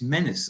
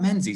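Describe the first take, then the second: First: The name is said differently from its spelling. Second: The name is said the way it is spelled. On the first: The speaker calls it right. "it's Menace or something like that" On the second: The speaker calls it wrong. "It's not Menzies"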